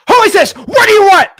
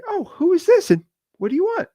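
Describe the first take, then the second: First: Much higher and louder, barked demand; aggressive shout. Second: Much higher, sweet and polite; polite caller voice. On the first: Retold or imitated. Annoyed seller answering a cold call with a loud, much higher shout. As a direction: yell it like an annoyed homeowner. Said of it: "It's always". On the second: Shown as a demonstration. Seller answering a cold call, politely, in a high sweet voice. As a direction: ask it nicely, like a friendly homeowner. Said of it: "Now, it's never like that".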